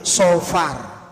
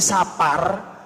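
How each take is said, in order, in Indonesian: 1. Vokal pertama terdengar seperti 'o' yang gelap. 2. Vokal pertama adalah 'a' biasa. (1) "bahasa Arabe Sofar" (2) "Tiang Jawi Sapar"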